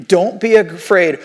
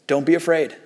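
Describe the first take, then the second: First: "Don't be afraid" said slowly and firmly; slow, deliberate weight on "Don't be afraid"; emphatic reassurance. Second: Low-key, lightly quoted reassurance; retold calming words, gently understated. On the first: Retold or imitated. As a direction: drive home "Don't be afraid", word by word. Quoting Nehemiah, repeated for emphasis. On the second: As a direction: reassure quietly, without pushing. Quoting Nehemiah, first take understated.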